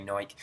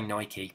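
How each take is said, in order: First: Nike clipped to one syllable, NYKE; English Nike. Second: Nike with two syllables, NY-kee; correct Nike. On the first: Showing how English people usually say Nike. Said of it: "we say Nike". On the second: Explaining the proper way to say Nike. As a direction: say Nike as NY-kee with a clear final ee. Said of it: "we're supposed to say Nike". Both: Shown as a demonstration.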